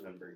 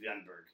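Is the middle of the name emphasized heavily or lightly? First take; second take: lightly; heavily. First: The middle of the name gets light emphasis. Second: The middle of the name gets heavy emphasis. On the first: The speaker calls it right. "It's just Venberg" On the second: The speaker calls it wrong. "You're adding too much emphasis in the middle"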